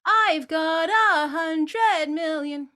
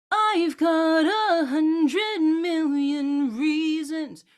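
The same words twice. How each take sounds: First: Sung slow and loud, pushed out; wrong loud-quiet take. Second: Slow, intense but inward; intensify it internally; sung with inner intensity; internal energy. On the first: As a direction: chuck the sound out. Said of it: "it'll sound more like this". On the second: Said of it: "an internal energy". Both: Shown as a demonstration.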